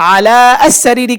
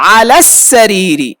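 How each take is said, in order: First: The 'a' of 'as' is pronounced separately. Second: The 'a' of 'as' is dropped and linked. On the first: The speaker calls it wrong. "কেন বলা হচ্ছে না" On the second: The speaker calls it right. "আলা সরাসরি সিনকে গিয়ে ধরেছে"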